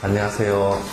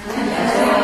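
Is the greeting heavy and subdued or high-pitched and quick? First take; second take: heavy; high-pitched. First: It is said in a heavy, subdued way. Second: It is said high-pitched and quickly. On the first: The speaker feels weighed down. The speaker calls it wrong. "안녕하세요 하는 마음이 무겁다" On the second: The speaker sounds upbeat and energetic. The speaker calls it right. "이렇게 좀 하이톤으로 빨리 가야 돼"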